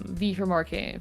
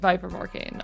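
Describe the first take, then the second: First: The name is said like 'vee'. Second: The name is said like 'vye'. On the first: The speaker calls it wrong. "Did you just call her V?" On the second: The speaker calls it right. "Vi, sorry, sorry"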